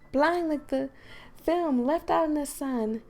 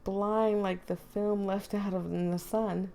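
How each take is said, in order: First: It is read in a put-on character voice. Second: It is read in the reader's natural voice. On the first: The speaker calls it right. "Supposed to be reading it in Monica's voice" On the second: The speaker calls it wrong. "I'm reading it in my own voice"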